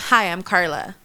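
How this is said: The greeting sounds flat and monotone.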